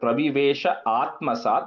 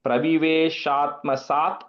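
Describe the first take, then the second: First: The two parts are said separately. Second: The two parts are said joined together.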